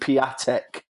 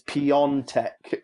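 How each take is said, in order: First: The name has no n sound before the t. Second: The name has an n sound before the t. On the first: The speaker calls it wrong. "I used to call him Piatek" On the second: The speaker calls it right. "they told me his name's Piontek"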